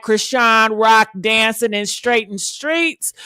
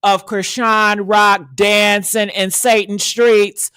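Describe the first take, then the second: First: Said in the usual way. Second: Slow, weighted delivery; slow dramatic line; slow emphasis. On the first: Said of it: "of Krishan Rock ... in Satan streets". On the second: Real, not acted. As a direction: drag it out for drama.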